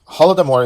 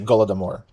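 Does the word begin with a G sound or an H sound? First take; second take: H sound; G sound. First: The word begins with an H sound. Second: The word begins with a G sound. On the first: This is how Ukrainians say it. "the Ukrainian pronunciation" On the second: This is how Russians say it. "what Russians would say"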